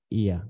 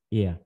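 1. Nguyên âm ngắn trượt nhanh thành âm uh nhẹ. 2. Nguyên âm ngắn trượt nhanh thành âm uh nhẹ.

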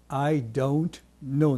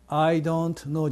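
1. don'tとknowは、oからuへ滑ります。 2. don'tとknowは、平らな単母音のoです。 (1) "英語では" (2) "じゃなくて"

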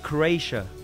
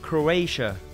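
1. Tên này được đọc theo kiểu tiếng Anh. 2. Tên này được đọc theo kiểu tiếng Anh.

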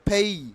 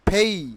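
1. প্রথম p-তে বাতাসের জোরালো ফুঁ আছে। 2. প্রথম p-তে বাতাসের জোরালো ফুঁ আছে।

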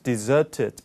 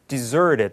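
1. 영국식 발음으로 말합니다. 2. 미국식 발음으로 말합니다. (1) "영국식 발음으로" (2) "캐나다 이제 미국 영어로 발음하면 deserted 이렇게 발음할 거예요"

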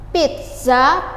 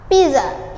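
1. Diucapkan dengan cara Indonesia, dengan bunyi t. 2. Diucapkan dengan cara Inggris, tanpa bunyi t. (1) "Kalau dalam bahasa Indonesia pizza" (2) "dalam bahasa Inggris kita baca pizza ... tanpa huruf T ya"

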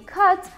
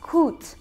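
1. Произносится с американским гласным 'uh'. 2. Произносится с региональным британским гласным. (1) "на американском английском оно произносится как cut, там а звук" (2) "в Британии в некоторых районах, так сказать, говорят"

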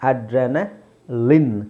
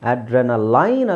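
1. ಕೊನೆಯ ಉಚ್ಚಾರಾಂಶದಲ್ಲಿ ಹ್ರಸ್ವ 'lin' ಧ್ವನಿ ಇದೆ. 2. ಕೊನೆಯ ಉಚ್ಚಾರಾಂಶ 'line' ಗೆ ಪ್ರಾಸವಾಗುತ್ತದೆ. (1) "ಲಿನ್, ಲಿನ್" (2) "ಅಡ್ರೆನಲೈನ್ ಅಲ್ಲ"

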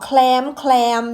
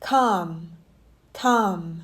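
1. คำนี้ออกเสียง L 2. คำนี้ไม่ออกเสียง L (1) "หลายคนจะออกแคลมอย่างเงี้ยไม่ใช่" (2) "ไม่มีตัว L ไม่มีลอลิง"

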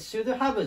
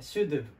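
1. 「have」は、hの音を含めて、はっきり発音されます。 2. 「have」は弱い「uv」の音に縮まります。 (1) "should have じゃなくて" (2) "H とかA が消える感じ"

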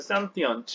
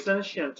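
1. 영국식 발음으로 말합니다. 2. 미국식 발음으로 말합니다. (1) "영국식이 사실은 sentient 이렇게 얘기하고요" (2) "미국식의 sentient 이렇게 발음을 하던데"

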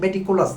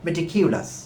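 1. দ্বিতীয় অক্ষরটি 'ko' হিসেবে বলা হয়। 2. দ্বিতীয় অক্ষরটি 'kyu' হিসেবে বলা হয়। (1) "যদিও উচ্চারণটি ভুল করেন, মেটিকোলাস বলেন পান্না, এটি মেটিকোলাস না"

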